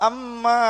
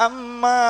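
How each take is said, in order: The two takes are said the same way.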